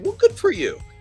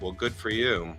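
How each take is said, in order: First: It is said with genuine, warm approval. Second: It is said with sarcastic, resentful approval.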